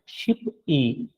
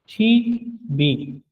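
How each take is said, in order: First: The final consonant stays with the first syllable. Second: The final consonant moves into the next syllable. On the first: The speaker calls it wrong. "अलग अलग से पढ़ेंगे तो ये है शिप ई, लेकिन ये गलत है sound" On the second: The speaker calls it right. "तो इसका सही साउंड जो है वो शी बी होगा"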